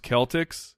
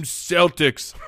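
First: Celtics said with a hard K, KEL-tiks. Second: Celtics said with a soft S, SEL-tiks. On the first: Shown as a demonstration. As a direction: Celtics starting with a K sound. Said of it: "didn't know it was pronounced". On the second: Retold or imitated. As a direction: Celtics starting with an S sound. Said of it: "and he said".

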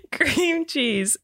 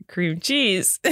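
First: "CREAM cheese", cream drawn out and high; stress on cream. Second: "cream CHEESE", weight on the second word; stress on cheese. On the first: Host tries both ways amid giggles, stress on cream. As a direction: hit "cream", let "cheese" drop. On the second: Host tries both ways amid giggles, stress on cheese. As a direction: lean on "cheese". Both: Shown as a demonstration. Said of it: "You're saying it wrong".

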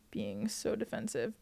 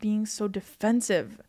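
First: Slow, much softer, half to oneself; writing it down. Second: Said in the usual way. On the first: Real, not acted. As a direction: murmur it slowly as you write. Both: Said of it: "I'm writing this down".

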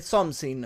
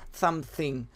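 First: "something" with plain s for th, "somsin"; mispronounced "something". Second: "something" with a clear th, "thamthing"; careful "something". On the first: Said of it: "me sale something". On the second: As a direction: put the tongue out for th in "something". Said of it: "no me sale something". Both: Shown as a demonstration.

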